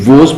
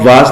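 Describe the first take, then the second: First: The vowel is a rounded 'aw' sound. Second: The vowel is an open, unrounded 'ah' sound. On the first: The speaker calls it right. "बल्कि वोज पढ़ें, ये अच्छा accent है" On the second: The speaker calls it wrong. "आप वाज ना पढ़ें"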